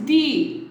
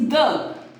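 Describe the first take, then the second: First: The vowel is a long 'ee' sound. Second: The vowel is a short 'uh' sound. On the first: The next word begins with a vowel sound. "Second one is the, that is T H E E" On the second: The next word begins with a consonant sound. "First one is the, T H U H"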